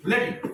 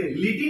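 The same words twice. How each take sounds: First: लटी as "luh-tee"; schwa for I. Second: लिटी with a clear "ih": "li-tee"; wrong I vowel. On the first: Teacher corrects pupils, लटी as "luh-tee". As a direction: say लटी with a short "uh" after L. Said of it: "अ sound हो गई". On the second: Teacher rejects the mistake, लिटी as "li-tee". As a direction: say लिटी with I kept as "ih". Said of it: "लिटी नहीं". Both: Shown as a demonstration.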